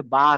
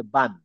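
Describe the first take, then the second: First: "বা" with an open aa, no final n. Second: "বান" closed on a final n; ba with tanween. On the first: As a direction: say "বা", leaving the vowel open. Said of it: "এটা আসলে বা না". ("বা", শেষে নুন ছাড়া) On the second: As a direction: say "বান", ending firmly in noon. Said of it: "এটা আসলে বান". ("বান", শেষে নুন উচ্চারণ) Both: Shown as a demonstration.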